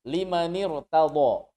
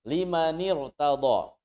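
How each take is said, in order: Both takes have the same delivery.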